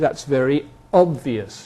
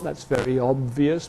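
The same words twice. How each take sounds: First: 'Obvious' begins with an emphatic glottal stop. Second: 'Obvious' begins without any glottal stop. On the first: The word is given extra emphasis. "I might give an emphasis with a glottal stop" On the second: The word is said without extra emphasis.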